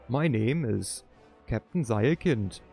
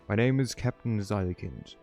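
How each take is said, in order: First: It is spoken with a put-on German accent. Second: It is spoken in a plain, unaccented voice.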